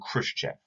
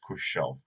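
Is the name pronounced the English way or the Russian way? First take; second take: English; Russian. First: The name is pronounced the usual English way. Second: The name is pronounced the Russian way. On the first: The speaker calls it wrong. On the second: The speaker calls it right.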